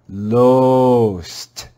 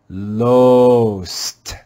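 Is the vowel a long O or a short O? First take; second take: long O; long O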